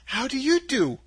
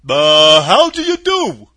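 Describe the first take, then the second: First: Put-on higher-pitched, polite girl. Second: Husky. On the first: Dorothy returning the scarecrow's greeting, polite. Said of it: "replied Dorothy politely". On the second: Scarecrow greeting Dorothy, loud and husky. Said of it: "in a rather husky voice". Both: A narrator's reading.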